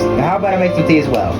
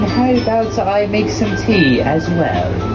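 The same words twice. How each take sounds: First: It is spoken in the speaker's normal accent. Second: It is spoken in a put-on British accent. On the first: "Forget the voice" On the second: "Screw the British accent"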